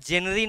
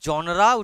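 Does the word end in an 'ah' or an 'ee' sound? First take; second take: ee; ah. First: It is said as jen-uh-ree, ending in ee. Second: It is said as jon-ruh, ending in ah. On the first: The speaker calls it wrong. "উচ্চারণটা জেনারি নয়" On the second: The speaker calls it right. "উচ্চারণটা হয় জনরা"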